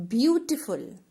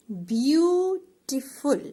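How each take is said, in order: First: Said in the usual way. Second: Beautiful said slowly, broken into beau-ti-ful; slow syllable split. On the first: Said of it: "So beau". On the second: Shown as a demonstration. Teacher splitting a word into syllables for pupils. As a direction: stretch Beautiful out so every syllable is heard. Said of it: "beau means A".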